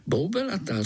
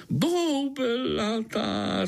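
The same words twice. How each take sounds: First: Said in the usual way. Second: Slow, high, savoured boubelatá; hungry gnat beaming at the news; delighted. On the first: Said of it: "řekl Pája". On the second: A narrator's reading. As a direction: relish boubelatá drawn out with glee. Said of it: "rozzářil se komár".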